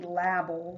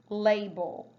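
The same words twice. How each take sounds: First: "label" said with a short A, like lab-el. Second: "label" said with a long A, like lay-bel. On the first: Teacher modelling the wrong short-A label. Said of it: "It wouldn't be label". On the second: Teacher modelling the correct long-A label. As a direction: say "label" with the A saying its name. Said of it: "syllable break with that long A". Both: Shown as a demonstration.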